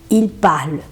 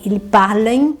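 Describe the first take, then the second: First: The final written ending is left silent. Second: The final written ending is pronounced aloud. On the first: The speaker calls it right. "non, il parle" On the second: The speaker calls it wrong. "Tem alguns alunos na hora de ler, falam assim"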